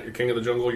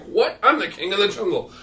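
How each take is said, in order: First: Said in the usual way. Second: High-pitched outraged protest; acted indignation, pitch jumping up; indignant lion. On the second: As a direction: protest as an affronted king. Lion objects to monkey's deal.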